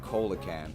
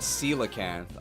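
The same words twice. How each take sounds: First: The first syllable sounds like 'coal'. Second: The first syllable sounds like 'seal'. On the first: The speaker calls it wrong. "I said coelacanth. I was incredibly wrong" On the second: The speaker calls it right. "She said"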